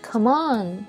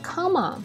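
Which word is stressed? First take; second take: on; come. First: The stress falls on the word on. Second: The stress falls on the word come. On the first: The speaker calls it right. "你得come on 是吧？" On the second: The speaker calls it wrong. "你不能来come on"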